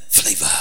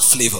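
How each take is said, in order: First: The word ends with an audible breathy release. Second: The word ends plainly without extra breath. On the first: The speaker calls it right. "With breath at the end" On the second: The speaker calls it wrong. "Not flavor"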